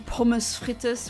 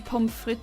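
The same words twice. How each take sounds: First: It is said the way Germans pronounce it. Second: It is said in the speaker's own usual way. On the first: The speaker calls it wrong. "They say pommes frites" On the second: The speaker calls it right. "like I do"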